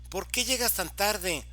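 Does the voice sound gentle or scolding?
scolding. It is said in a harsh, scolding tone. The listener is being told off. "me están regañando"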